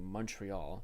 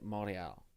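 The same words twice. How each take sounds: First: It is said with an English pronunciation. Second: It is said with a French pronunciation. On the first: "instead of saying Montreal" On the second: "I'll say them with French pronunciation"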